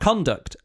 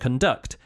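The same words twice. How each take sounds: First: The stress is on the first syllable. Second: The stress is on the second syllable. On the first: It is a noun. "when it's a noun, it's at the start" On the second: It is a verb. "when it's a verb, the emphasis is at the end"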